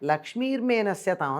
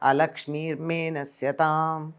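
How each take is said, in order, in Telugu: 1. ఈ వాక్యం నేరుగా 'la' తో మొదలవుతుంది. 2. ఈ వాక్యం 'a' శబ్దంతో మొదలవుతుంది. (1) "లక్ష్మీర్మేనస్యతాం అని చదువుతారు" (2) "ఆ అన్నది అవగ్రాహంగా ఉండాలి"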